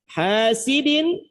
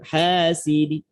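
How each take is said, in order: First: The word ends with a full vowel and n. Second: The n is dropped and the last syllable is soft.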